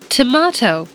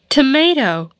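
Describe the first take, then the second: First: It is said with a British accent. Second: It is said with an American accent.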